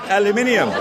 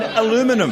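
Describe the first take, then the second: First: It is pronounced the British way. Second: It is pronounced the American way. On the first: The speaker calls it right. "It's called aluminium because it's spelt aluminium" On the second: The speaker calls it wrong. "Things that annoy me about what Americans say"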